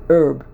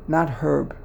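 First: The word begins without an h sound. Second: The word begins with an h sound. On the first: The speaker calls it right. "you don't pronounce the H" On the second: The speaker calls it wrong.

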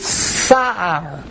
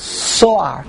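First: The first vowel is an open 'a' sound. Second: The first vowel is a rounded 'o' sound. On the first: The speaker calls it right. "the pronunciation should be sa'ar" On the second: The speaker calls it wrong. "not so'ar"

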